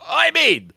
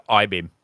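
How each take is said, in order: First: High, loud mock-eager yell; excited exclamation. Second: Said in the usual way. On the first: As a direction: leap up in pitch, instantly sold. Acts out instant reaction to teaser.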